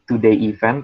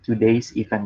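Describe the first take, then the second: First: No s sound is heard after 'today'. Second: An s sound is heard after 'today'. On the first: The speaker calls it wrong. "Bukan today event" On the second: The speaker calls it right. "tapi today's event. Jadi karena ada uh, S-nya"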